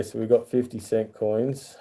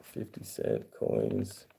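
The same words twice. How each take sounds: First: Said in the usual way. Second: Slow breathy whisper of "Fifty cent coins". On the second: Shown as a demonstration. Repeating the coin name to viewers, slow whisper.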